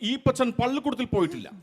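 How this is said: It is read in a formal newsreader style. "ഒരു ചാനലിൽ വാർത്ത വായിക്കുന്ന ഒരു അവതാരകനാണ് പറയുന്നതെങ്കിൽ"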